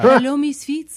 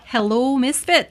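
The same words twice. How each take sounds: First: It is read in a French Canadian accent. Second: It is read without a French Canadian accent. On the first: The speaker calls it right. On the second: The speaker calls it wrong.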